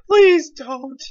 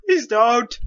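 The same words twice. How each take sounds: First: Higher pleading please; whiny plea. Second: Said in the usual way. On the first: Pretend.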